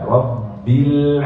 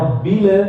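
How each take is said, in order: First: The final l ends smoothly, without bounce. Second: The final l ends with a bounce. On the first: The speaker calls it right. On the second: The speaker calls it wrong.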